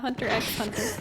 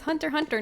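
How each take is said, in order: First: An X is spoken between the two words. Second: No X is spoken between the two words. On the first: The speaker calls it wrong. "you're not supposed to pronounce the X" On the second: The speaker calls it right. "It's just called Hunter Hunter"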